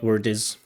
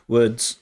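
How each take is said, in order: First: The d and z sounds are split apart. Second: The d and z sounds are joined together. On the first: The speaker calls it wrong. "not word is" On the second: The speaker calls it right. "That d and z is linked together"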